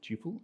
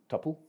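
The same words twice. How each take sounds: First: The first syllable has a long 'oo' vowel. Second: The first syllable has a short vowel, like supple. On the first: The speaker calls it right. "I pronounce it tuple" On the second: The speaker calls it wrong. "I do not pronounce it tuple. If it had two P's and was spelt like supple"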